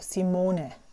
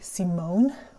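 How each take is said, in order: First: It ends with a short uh vowel sound. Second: It ends without a final vowel sound. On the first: The speaker calls it right. "It's a short uh sound at the end. However, and a long O" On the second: The speaker calls it wrong. "which is basically like the worst you can call me"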